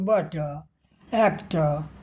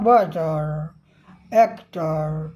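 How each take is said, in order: First: The final r sound is not pronounced. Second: The final r sound is clearly pronounced. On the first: "अगर यही British में होता तो" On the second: "लेकिन यहाँ ... तो ये जो आर आ रहा है"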